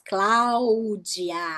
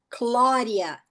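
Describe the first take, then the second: First: The name is said in a Portuguese accent. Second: The name is said in an English accent. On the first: "Em português, a gente fala todas as vogais" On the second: "A com U tem som de O, D entre vogais tem som de R"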